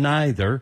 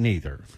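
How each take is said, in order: First: It is said in an English-area pronunciation. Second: It is said in a Southern US pronunciation.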